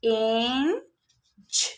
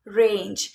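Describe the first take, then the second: First: रेंज stretched very slowly, rising at the end; drawn-out sounding-out. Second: Said in the usual way. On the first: Shown as a demonstration. Teacher sounding out रेंज slowly for students, drawn out.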